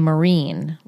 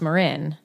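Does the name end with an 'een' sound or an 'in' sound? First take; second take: een; in. First: The name ends with a long 'een' sound. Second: The name ends with a short 'in' sound. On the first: The speaker calls it wrong. "I had previously pronounced her name Marine, which is how it's spelled" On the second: The speaker calls it right. "it's pronounced Marin"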